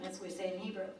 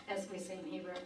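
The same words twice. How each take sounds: The two takes are said the same way.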